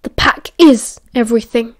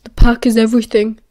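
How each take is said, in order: First: Fierce, loud stress on “is”. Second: Louder, bitter echo of another's motto; bitter quoting. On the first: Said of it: "Castor said fiercely". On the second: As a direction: throw “The pack is everything” back, punching “pack”. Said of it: "Remus returned bitterly". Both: A narrator's reading.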